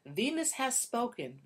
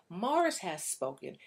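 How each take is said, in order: First: Slow, solemn, leaning on "Venus"; mock-grand pronouncement with weight on "Venus"; proclamation, "Venus" stressed. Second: Slow, solemn, leaning on "Mars"; mock-grand pronouncement with weight on "Mars"; proclamation, "Mars" stressed. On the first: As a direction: announce it like a decree, hitting "Venus". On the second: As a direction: announce it like a decree, hitting "Mars". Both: Shown as a demonstration. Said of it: "as Doctor John Gray says".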